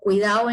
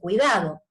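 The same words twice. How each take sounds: First: The word is said in a relaxed, reduced way. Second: The word is said carefully and fully, as written. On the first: This is how it is often said in casual speech. "en el habla muchas veces decimos cuidado" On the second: This is the form everyone writes. "Todos vamos a escribir cuidado"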